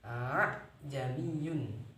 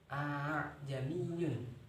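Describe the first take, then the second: First: The second hamzah is a full, heavy stop. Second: The second hamzah is drawn out long. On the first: "menjadikan yang kedua ini hamzah. Jadinya berat" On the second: "karena memanjangkan hamzah"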